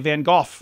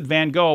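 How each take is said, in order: First: 'Gogh' ends with a guttural sound like 'cough'. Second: 'Gogh' ends without a guttural sound. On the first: "Brits tend to say Van Gogh, ... more of a guttural noise, which kind of rhymes with cough" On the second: "North Americans pronounce it Van Gogh"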